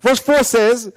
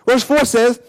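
The two takes are said the same way.

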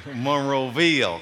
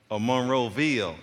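First: Drawn-out Alabama Monroeville, slow; slow mock Southern Alabama accent; imitating a Southern drawl. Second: Said in the usual way. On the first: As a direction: mimic her Southern Alabama way of saying Monroeville. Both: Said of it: "Do you talk like that?".

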